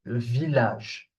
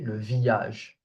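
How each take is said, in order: No difference in how they are said.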